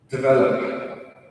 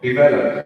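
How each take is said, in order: First: It is said in a neutral American accent. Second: It is said in a stereotypical Indian accent.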